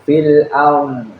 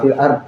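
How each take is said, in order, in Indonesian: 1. Konsonan akhir ditahan dulu, lalu dipanjangkan. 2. Konsonan akhir dipotong tiba-tiba. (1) "menekuk dulu, nah baru sampai habis tuh fil arm" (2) "jangan fil ard. Kalau fil ard mah kayak anak teberki"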